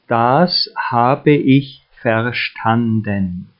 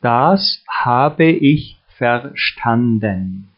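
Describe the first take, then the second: No difference in how they are said.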